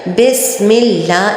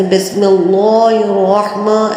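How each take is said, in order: First: بسم اللہ slow with thin light سین; correct light reading. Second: بسم اللہ الرحمن with every letter made thick and heavy; mock wrong way, بسم اللہ الرحمن all full-mouthed; wrong heavy reading. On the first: Teacher modelling the right light way. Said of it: "اس کی بہت اچھی طرح practice کیجئے". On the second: Teacher showing the wrong heavy way. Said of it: "ہر چیز کو موٹا موٹا کر کے پڑھنے". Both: Shown as a demonstration.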